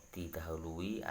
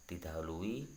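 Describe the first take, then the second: No difference in how they are said.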